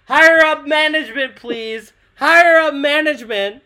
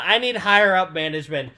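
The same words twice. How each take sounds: First: Loud, high call for the manager. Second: Said in the usual way. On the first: Acted. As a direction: shout it across the store. Calling out for a manager.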